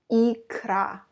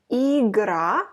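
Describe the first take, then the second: First: "икра" with a crisp k, falling; clear икра. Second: "Игра" with a crisp hard g, rising; clear игра. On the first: Teacher contrasting икра with игра. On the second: Teacher contrasting игра with икра. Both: Shown as a demonstration. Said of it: "don't confuse them".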